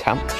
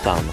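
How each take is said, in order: First: It is said like tan with ch. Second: It is said like the word than. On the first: "You might also hear them called ... tanch, with a CH in there" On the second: "I pronounce tan h as than"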